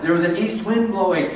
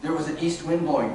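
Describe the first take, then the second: First: Like seeing the line for the first time; fresh rereading. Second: Said in the usual way. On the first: Shown as a demonstration. Teacher rereading the verse to the class with a fresh, amused lift. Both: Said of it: "Read it again with a new set of eyes".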